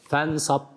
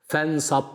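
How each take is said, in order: No difference in how they are said.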